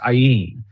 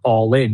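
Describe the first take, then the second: First: It sounds like 'eye-in', starting with 'eye'. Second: It sounds like the English words 'all in'. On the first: It is the name's actual pronunciation. The speaker calls it right. "but it's actually produced Ayin" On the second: It is read the way an English speaker would. The speaker calls it wrong. "you don't pronounce the word all in. You do when you read it as an English speaker"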